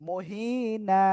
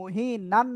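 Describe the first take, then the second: First: The word ends with a drawn-out vowel. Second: The word ends with an n sound. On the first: The speaker calls it right. "এক আলিফ টেনে পড়তে হয়" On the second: The speaker calls it wrong. "না পড়ে"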